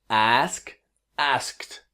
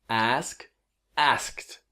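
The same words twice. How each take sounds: No difference in how they are said.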